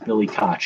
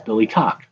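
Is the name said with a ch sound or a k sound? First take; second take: ch sound; k sound. First: The name ends with a ch sound. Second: The name ends with a hard k sound. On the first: "If it's ch" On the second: "if it's hard"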